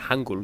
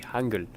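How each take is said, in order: First: The last syllable has a different vowel sound. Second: The last syllable has an 'ul' sound. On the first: The speaker calls it wrong. "I was saying Hangul yesterday" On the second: The speaker calls it right. "but it's actually Hangul. with like a ul sound"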